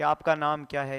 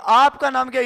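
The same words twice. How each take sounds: First: It is said quietly, with low volume. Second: It is said loudly, with high volume. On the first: "धीरे बोलो मतलब pitch ज्यादा नहीं" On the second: "ये तो जोर से बोला आदमी"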